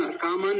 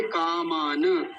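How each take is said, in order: First: "कामान" quicker, closed on n; wrong half na. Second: "कामान" slow, ending in open na; full na. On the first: Teacher shows the slip just made, half na. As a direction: say "कामान" as kaa-maan, no last vowel. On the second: Teacher gives the right form, slow full na. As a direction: draw out "कामान" as kaa-maa-na. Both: Shown as a demonstration. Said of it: "कामान नहीं है".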